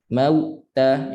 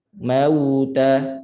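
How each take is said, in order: First: "Mauta" split by a gap after mau, before ta; broken voice. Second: "Mauta" joined in one long unbroken sound; flowing voice. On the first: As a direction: stop the sound midway through "Mauta". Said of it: "itu putus suara". ("Mauta" dengan suara putus) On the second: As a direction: let the voice run through the w of "Mauta" into ta. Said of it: "Suara mengalir". ("Mauta" suara mengalir) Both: Shown as a demonstration.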